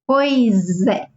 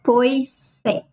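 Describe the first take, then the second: First: The s links into é as a z. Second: The two words are said separately, without linking. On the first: The speaker calls it right. "we say it together. So it sounds like z" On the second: The speaker calls it wrong. "It's not pois é"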